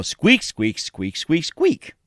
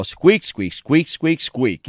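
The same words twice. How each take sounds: First: Playful squeaking with a jump up on the last one; squirrel squeaks. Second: Playful imitation of little squeaks; squirrel squeaks. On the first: Retold or imitated. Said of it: "they always go". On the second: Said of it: "one of the guys in there saying".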